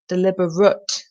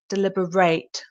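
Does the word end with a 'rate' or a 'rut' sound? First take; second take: rut; rate. First: The final syllable sounds like 'rut'. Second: The final syllable sounds like 'rate'. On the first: It is an adjective meaning done on purpose. "The end sound, which is different to the other one, is rut" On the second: It is a verb meaning to consider carefully. "And the sound at the end is rate"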